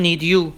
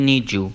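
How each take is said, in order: First: Said in the usual way. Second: "need you" blended into "nee-joo"; "need you" with a j in the middle; linked sounds. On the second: Shown as a demonstration.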